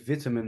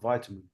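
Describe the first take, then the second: First: It is said with an English pronunciation. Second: It is said with a non-English pronunciation. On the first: "why do you say vitamin" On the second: "and not vitamin"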